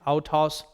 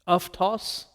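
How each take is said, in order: First: The first vowel pair sounds like 'ow'. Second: The first vowel pair sounds like 'af'. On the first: "Classical Raspin" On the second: "That's Koine and modern pronunciation"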